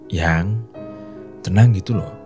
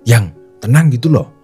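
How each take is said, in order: First: It is said slowly in a soft tone. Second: It is said fast in a high pitch. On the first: The listener becomes calmer and more relaxed. The speaker calls it right. "Dengan nada yang halus dan intonasi yang pelan ini" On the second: The listener becomes tense and more panicked. The speaker calls it wrong. "nada yang tinggi dan intonasi yang cepat seperti ini"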